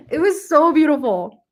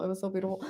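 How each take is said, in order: First: Rising, voice catching with real feeling; getting emotional. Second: Much softer, almost to herself; emotional hush. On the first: Telling viewers about a beloved book, choked up and moved. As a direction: hold back tears as the words come out. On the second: Repeating to viewers, overcome, softly murmured. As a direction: let it fall away as feelings rise. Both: Real, not acted. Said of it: "I'm getting emotional".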